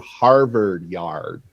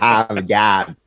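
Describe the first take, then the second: First: The r sounds are clearly pronounced. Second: The r sounds are dropped. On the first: The speaker has moved away from Massachusetts. "I go to Harvard Yard" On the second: This is the old Boston way of speaking. "not Harvard Yard"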